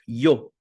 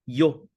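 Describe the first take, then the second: The two takes are said the same way.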